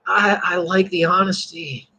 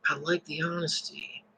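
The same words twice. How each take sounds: First: Said in the usual way. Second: "I like the honesty" said again much softer; soft repeat. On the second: Real, not acted. Preacher repeating to his class, much softer. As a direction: drop to a soft, sincere echo.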